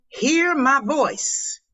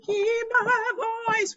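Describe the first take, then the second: First: Said in the usual way. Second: Sung, belt the chorus line higher; singing along. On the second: Pretend. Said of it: "I need the piano right there".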